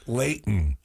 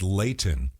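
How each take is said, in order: First: The T in the middle is swallowed. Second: The T in the middle is fully released. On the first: The speaker sounds like a local. The speaker calls it right. "slid back to saying Layton" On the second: The speaker sounds proper or pretentious. The speaker calls it wrong. "highfalutin big shot with the hard T"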